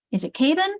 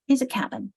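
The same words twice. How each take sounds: First: "cabin" with a long first vowel, KAY-bin. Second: "cabin" with a short first vowel, CAB-in. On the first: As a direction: try "cabin" as KAY-bin, rising like a question. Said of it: "cabin isn't a word you know". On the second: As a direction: settle on "cabin" as CAB-in, falling. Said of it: "but cabin is". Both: Shown as a demonstration.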